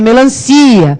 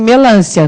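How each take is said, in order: First: The stress falls on the syllable ci. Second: The stress falls on the syllable lan. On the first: The speaker calls it right. "Mas é melancia" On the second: The speaker calls it wrong. "aquele assento circunflexo que o rapaz coloca é só se o nome realmente fosse melancia"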